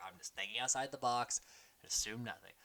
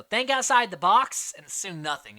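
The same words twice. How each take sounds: First: Low, soft parroting; imitated confessional. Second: Loud, raised mock instruction; imitated advice. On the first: Player repeats advice in her confessional, quietly parroting. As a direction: quietly echo someone else's advice. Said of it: "cuts to her confessional". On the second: Castaway advises his tribemate, mock-emphatic and loud. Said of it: "Jason tells her".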